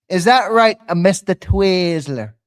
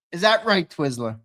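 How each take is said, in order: First: Loud taunt. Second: Needling question to Twiz, normal level; teasing question. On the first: Louder repeat of taunt. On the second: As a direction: ask it half-teasing. First of repeated taunt. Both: Real, not acted.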